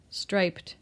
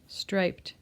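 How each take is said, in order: First: The word is said with one syllable. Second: The word is said with one syllable.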